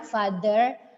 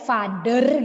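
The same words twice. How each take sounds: First: The middle consonant is a breathy th sound. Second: The middle consonant is a hard d sound. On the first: The speaker calls it right. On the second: The speaker calls it wrong.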